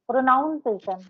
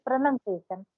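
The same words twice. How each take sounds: First: "pronunciation" with NOUN in the middle, pro-NOUN-ciation; mispronounced pronunciation. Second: "pronunciation" with a short NUN in the middle, pro-nun-ciation; correct pronunciation. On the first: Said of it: "because to pronounce the word". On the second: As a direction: say "pronunciation" with NUN, not NOUN. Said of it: "that's called pronunciation". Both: Shown as a demonstration.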